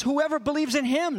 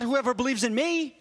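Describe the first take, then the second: First: "him" stressed at the end, pointing to someone else. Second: "me" stressed as the rejected wording. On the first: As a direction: land firmly on "him". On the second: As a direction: land on "me" at the end. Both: Shown as a demonstration.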